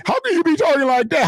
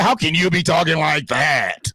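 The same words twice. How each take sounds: First: High mock voice, much higher; mocking the critics. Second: Said in the usual way. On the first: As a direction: parrot the critics' question in a high sneering tone. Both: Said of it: "Y'all motherfuckers can talk".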